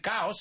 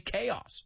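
First: It is pronounced with Spanish sounds. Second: It is pronounced with English sounds. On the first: The speaker calls it wrong. "Don't say caos" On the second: The speaker calls it right. "say chaos"

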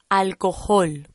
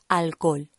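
First: The h in the middle is pronounced. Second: The h in the middle is silent. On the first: The speaker calls it wrong. "No decimos alcohol, cuidado con esto. Alcohol no existe en español" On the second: The speaker calls it right. "Es alcohol"

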